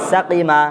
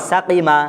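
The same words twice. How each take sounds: The two takes are said the same way.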